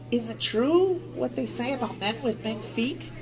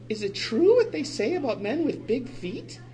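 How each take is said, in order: First: It is said in a lower voice. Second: It is said in a higher voice.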